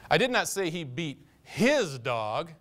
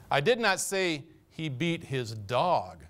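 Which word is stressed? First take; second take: his; dog. First: The word 'his' is stressed. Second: The word 'dog' is stressed. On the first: He beat some other dog, but not his own. "He had a tendency to work over the neighbor's dog quite often" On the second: He beat some other animal, but not the dog. "He was hard on the cat"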